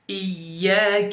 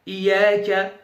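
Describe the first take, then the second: First: The y sound is held long and doubled. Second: The y sound is short and single. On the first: The speaker calls it right. "j'accentue, ici il y a une shadda" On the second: The speaker calls it wrong. "certains récitent comme ça"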